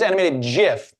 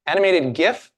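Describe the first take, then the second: First: "gif" pronounced "jif", with a soft g; soft-g pronunciation. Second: "gif" with a hard g, rising as a question; hard-g pronunciation. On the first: Host polls the room for hands, "gif" with soft g. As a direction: open "gif" on a j sound. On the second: Host polls the room for the other side, "gif" with hard g. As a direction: ask it with "gif" starting like "gift". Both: Shown as a demonstration. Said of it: "pronounce the word".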